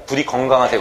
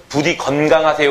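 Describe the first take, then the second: First: "건강하세요" said 겅강, n turned to ng; colloquial pronunciation. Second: "건강하세요" said with a clear n, geon-gang; standard pronunciation. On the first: Teacher showing how people really say it, colloquial pronunciation. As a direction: blend the first syllable of "건강하세요" into geong. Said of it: "건강한단 말이야". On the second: Teacher teasing students with the correct form, standard pronunciation. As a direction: keep the n before g in "건강하세요". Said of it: "건강해야 되는데 뭐라고 해요?". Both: Shown as a demonstration.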